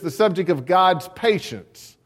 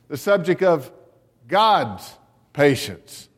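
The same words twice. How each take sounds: First: The stress falls normally, with no special emphasis on God's. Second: The word God's is given strong emphasis.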